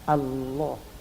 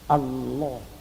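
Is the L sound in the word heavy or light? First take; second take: heavy; heavy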